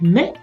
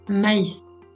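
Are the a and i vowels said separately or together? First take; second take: together; separately. First: The a and i merge into one vowel sound. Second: The a and i are said as separate vowels. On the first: The speaker calls it wrong. "On ne va pas dire qu'on mange du mets" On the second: The speaker calls it right. "mais on va dire qu'on mange du maïs"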